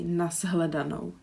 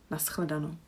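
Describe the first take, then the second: First: The cluster is voiced, like z plus h. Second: The cluster is voiceless, like s plus ch. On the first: This is a regional variant. "So we have both voiced and it's Z" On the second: This is the more common variant. "the mo more common, I think, is the sch"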